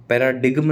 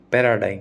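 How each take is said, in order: First: पैराडिगम with the G sounded; wrong pronunciation. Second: पैराडाइम with a silent G, ending in -dime; correct pronunciation. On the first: Teacher recalling how he used to say it wrongly, G sounded. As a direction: show the mistake, G spoken in पैराडिगम. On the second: Teacher modelling the correct word for students, G silent. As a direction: say पैराडाइम, no G at all. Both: Shown as a demonstration. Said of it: "पैराडिगम नहीं बोलते".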